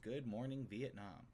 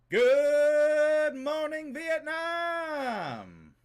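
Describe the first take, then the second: First: It is read plainly at normal volume. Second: It is shouted loudly, imitating the radio host.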